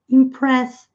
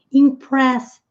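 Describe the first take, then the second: No difference in how they are said.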